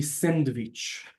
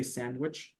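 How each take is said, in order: First: "sandwich" drawn out as "send-vitch", v for w; Hebrew-style loanword. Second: Said in the usual way. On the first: Shown as a demonstration. Teacher showing the foreign loanword, Hebrew pronunciation. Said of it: "It's not in Hebrew". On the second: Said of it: "it'll be sandwich".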